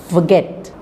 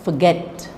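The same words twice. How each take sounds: First: The stress is on the second syllable. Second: The stress is on the second syllable.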